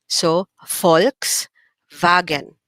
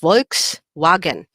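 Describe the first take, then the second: First: It starts with F and has a V sound. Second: It starts with V and has a W sound. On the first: This is the German pronunciation. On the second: This is the English pronunciation.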